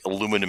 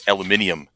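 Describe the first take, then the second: First: It is said in the American way. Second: It is said in the British way.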